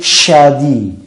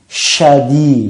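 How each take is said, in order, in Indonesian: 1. Dimulai dengan bunyi sh yang kuat. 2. Dimulai dengan bunyi sh yang kuat.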